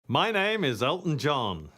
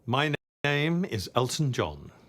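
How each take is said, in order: First: It is said in a big, showy way. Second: It is said in a restrained, toned-down way.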